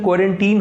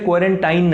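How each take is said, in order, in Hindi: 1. आखिरी अक्षर 'teen' जैसा सुनाई देता है। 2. आखिरी अक्षर 'tine' जैसा सुनाई देता है। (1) "प्रोनाउंसिएशन क्वारंटीन होती है" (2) "क्वारंटाइन नहीं"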